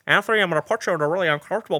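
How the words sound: It is spoken in a put-on impression voice. The speaker calls it right. "let me do my George Lucas voice"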